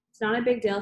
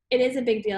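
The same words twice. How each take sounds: First: Mildly defensive brush-off. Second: "is" leaned on to contradict; stress on IS. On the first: Girl answering her annoyed friend, mildly defensive. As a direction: play it down, a touch on the defensive. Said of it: "she answers defensively". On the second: Annoyed friend contradicting her denial, stress on "is". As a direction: push back firmly on the word "is". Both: A narrator's reading.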